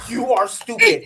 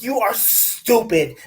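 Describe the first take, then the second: First: Louder, laughing yell; laughing mock yell at the phone. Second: Slow, punchy mock yell; slow exasperated yelling; mock yell at phone. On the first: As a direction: shout it through a laugh. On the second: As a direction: yell it at the screen, word by word. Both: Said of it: "I was yelling at my phone".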